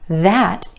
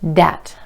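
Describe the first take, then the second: First: It begins with a voiced th sound. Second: It begins with a d sound.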